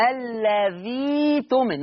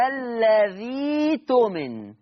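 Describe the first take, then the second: First: الذي تؤمن said slowly, tؤمن with the hamza softened toward ي; first slow demo. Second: الذي تؤمن chanted very slowly in recitation tone, hamza turned to ي; recited Warsh reading. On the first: Teacher giving students the first model reading, slowly. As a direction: speak الذي تؤمن slowly and clearly, showing the changed hamza. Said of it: "وده التلقي اللي أنا عايزكم تتلقوه عني". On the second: Teacher reciting the model for students in Quran chant. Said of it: "ما أنا أبدلتها يه بقى". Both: Shown as a demonstration.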